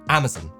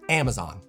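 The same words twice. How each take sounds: First: The final syllable is short and reduced. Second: The final syllable is long and open. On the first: "In the U K, the third syllable is almost contracted, like the O isn't there" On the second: "in the U S, this is pronounced Amazon. The final syllable is really drawn out"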